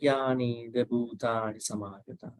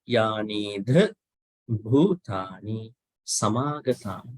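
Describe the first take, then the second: First: The consonants are said lightly without a breath of air. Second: The consonants are said with a puff of air. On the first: The speaker calls it wrong. "not not yani the bhutani samagata. In that light way" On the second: The speaker calls it right. "It should be"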